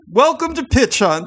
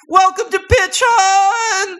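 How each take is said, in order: First: It is said with low energy. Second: It is said with high energy.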